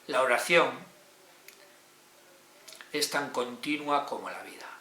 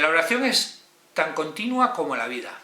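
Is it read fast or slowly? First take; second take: slowly; fast. First: It is read more slowly and carefully. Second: It is read at a quicker pace.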